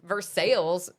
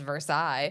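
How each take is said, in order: First: It is pronounced the way locals say it. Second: It is pronounced differently from the local way. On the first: This is how the town name is said here. The speaker calls it right. "We have Versailles" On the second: This is not how the town name is said here. The speaker calls it wrong. "Certainly don't say that as Versailles"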